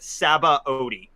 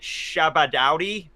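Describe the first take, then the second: First: The name starts with an 's' sound. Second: The name starts with an 'sh' sound. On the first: The speaker calls it right. "The dub goes with uh Sabaody. So that's what I go with" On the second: The speaker calls it wrong. "when I first saw the word I pronounced it Shabadowdy or something like that. That that is not accurate"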